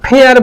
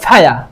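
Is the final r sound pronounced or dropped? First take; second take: pronounced; dropped. First: The final r sound is pronounced. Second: The final r sound is dropped. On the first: "ফেয়ার বলতাম" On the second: "এটা হবে ফায়া"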